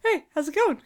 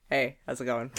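First: High squeaky greeting; second voice. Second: Low casual greeting voice; a lightly lowered everyman hello; voice one. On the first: Asked for a second voice, squeaky high greeting. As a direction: pitch it way up like a cartoon. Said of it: "What's your second voice?". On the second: Showing off a first voice, low casual greeting. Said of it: "I can do this one". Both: Shown as a demonstration.

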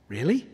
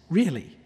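First: Rising, doubtful question; asked as an incredulous Really?. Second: Falling, settled really; quiet, certain really. with a falling tune; firm answer. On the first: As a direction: voice the listener's disbelief. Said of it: "Yes, really". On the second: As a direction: reassure them it's true. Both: Shown as a demonstration.

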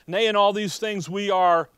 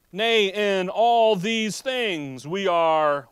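First: Loud, quicker read with "Nay" hit hard; punchy reading. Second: Slow, loud, stretched preaching read; drawn-out reading. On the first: Preacher rereading verse to congregation, punchy and loud. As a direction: punch "Nay" and run the rest. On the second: Preacher slowly reading verse to congregation, drawn out. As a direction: stretch every word of the verse out. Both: Shown as a demonstration. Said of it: "notice how".

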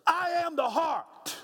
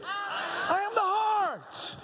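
First: Call to repeat. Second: High, slow, gritty shout of "I am the heart". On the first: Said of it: "Say that with me". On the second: Leading the congregation in a gritty shouted chant. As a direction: growl it out with grit. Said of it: "Now say it gritty". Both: Shown as a demonstration.

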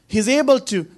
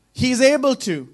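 No difference in how they are said.

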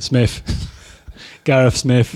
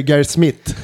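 First: Loud Corby accent, "Smith" ending near an f. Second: "Gareth Smith" with hard t sounds, Swedish style; Swedish accent. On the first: Guest showing how his hometown says his name, Corby accent. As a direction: say it like a Corby local. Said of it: "from where I'm from in Corbett". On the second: Host showing the Swedish version of the name, Swedish accent. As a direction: say the name as a Swede would. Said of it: "in Swedish". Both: Shown as a demonstration.

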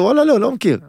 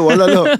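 First: Exaggerated sheepish admission. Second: High and loud, a blurted no; blurting out he knows no teams; sheepish admission. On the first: Retelling to the agent, a high, loud mock-innocent no. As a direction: ham up the confession of knowing nobody. Repeats the admission, even higher. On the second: Retold or imitated. To the agent, a loud sheepish blurted no. Admits not knowing any teams.

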